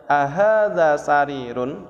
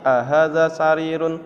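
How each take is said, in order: First: AHADZA swelling up, slow and drawn out on "ahadza sarirun"; questioning intonation. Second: Said in the usual way. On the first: Shown as a demonstration. Teacher modelling the correct Arabic question for students, with questioning intonation. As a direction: ask "ahadza sarirun" slowly with a lilting question tune. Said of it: "tapi ada intonasinya". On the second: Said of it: "tidak seperti".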